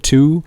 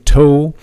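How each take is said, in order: First: The vowel sounds like 'oo'. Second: The vowel sounds like 'oh'. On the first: The speaker calls it right. "like a, a U, like we like we say today in English" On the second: The speaker calls it wrong. "we don't say toe"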